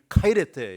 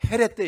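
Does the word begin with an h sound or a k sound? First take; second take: k sound; h sound. First: The word begins with a k sound. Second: The word begins with an h sound. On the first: This is the ancient biblical Greek pronunciation. "우리는 카이레테 이렇게 성경적인 그릭" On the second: This is the modern Greek pronunciation. "현재 말로는 ... 헤레테 이렇게 발음을 하더라고요"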